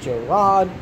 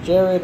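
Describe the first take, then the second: First: The name is said like Gerard. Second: The name is said like Jared. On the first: The speaker calls it right. "It's Gerard" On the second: The speaker calls it wrong. "not Jared. I don't know why they keep saying Jared"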